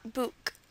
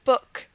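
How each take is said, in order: First: The vowel is a long 'oo' sound. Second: The vowel is a short 'uh' sound. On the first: The speaker calls it wrong. "not book" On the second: The speaker calls it right. "or book"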